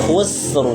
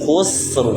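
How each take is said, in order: No difference in how they are said.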